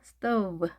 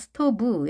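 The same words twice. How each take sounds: First: The final sound is made with open lips. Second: The final sound is made with closed lips. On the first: The speaker calls it right. "열은 상태에서 발음하셔야" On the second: The speaker calls it wrong. "입술을 닫은 상태에서 발음하는 것이 아니라"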